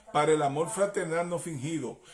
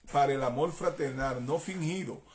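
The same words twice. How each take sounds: No difference in how they are said.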